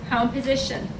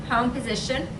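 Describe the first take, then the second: The two takes are said the same way.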